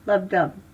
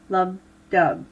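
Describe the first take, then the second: First: It is said at a normal pace. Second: It is said slowly.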